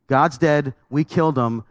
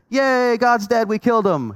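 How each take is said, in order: First: It is said gravely, with concern. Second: It is said cheerfully, celebrating.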